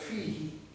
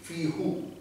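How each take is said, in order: First: The vowel after the h is i. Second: The vowel after the h is u. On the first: The speaker calls it right. "But fihi is simple" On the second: The speaker calls it wrong. "if it is who, it will be difficult to read"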